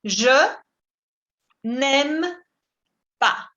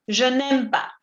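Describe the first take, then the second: First: "Je", "n'aime", "pas" spaced out; slow model. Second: Said in the usual way. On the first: Shown as a demonstration. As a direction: separate each word for learners. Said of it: "Je n'aime pas significa". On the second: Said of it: "el francés bonito".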